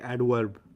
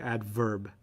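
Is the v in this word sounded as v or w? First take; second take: w; v. First: The v is pronounced like a w. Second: The v is pronounced as a normal v. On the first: "They say adverb" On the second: "they don't say adverb"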